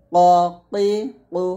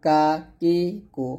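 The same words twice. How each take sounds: First: Thick ক, কি, কু; heavy qaf. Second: Light কা, কি, কু; thin kaf. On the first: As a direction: say ক rounded and heavy. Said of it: "কফটা মোটা হবে". (ক মোটা করে) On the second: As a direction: say কা open and thin. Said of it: "কাফ পাতলা হবে". (কা পাতলা করে) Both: Shown as a demonstration.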